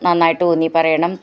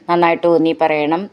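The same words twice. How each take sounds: No difference in how they are said.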